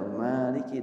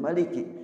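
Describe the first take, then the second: First: The first vowel is drawn out long. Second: The first vowel is kept short. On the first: God is praised as the owner. "ada dua bacaan" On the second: God is praised as the ruler. "ada dua bacaan"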